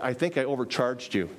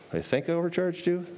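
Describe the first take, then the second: First: Said in the usual way. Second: OVERCHARGED YOU pitched high as a question; mock questioning. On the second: Zacchaeus at the door owning up to overcharging, mock questioning. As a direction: query "I think I overcharged you" in a higher voice. Repeats quote as doubtful question.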